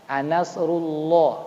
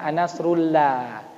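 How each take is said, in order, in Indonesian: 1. 'llah' itu berat dan tebal. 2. 'llah' itu ringan dan tipis. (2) "Jangan anasrullah"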